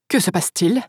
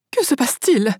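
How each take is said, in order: First: Understated exclamation at usual pitch; a touch of surprise in the question; exclaiming. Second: Higher-pitched, alarmed question; mild cry. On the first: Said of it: "s'exclama Dolores". (exclamation contenue) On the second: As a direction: ask it as a restrained cry. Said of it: "cria Baverly". (cri modéré, plus aigu) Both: A narrator's reading.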